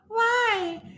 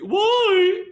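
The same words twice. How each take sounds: First: It is spoken in a small, speechlike childlike voice. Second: It is spoken in a lofty, hooty head voice. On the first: The speaker calls it right. "the little child or the little girl uh, voice" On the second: The speaker calls it wrong. "head voice means loft"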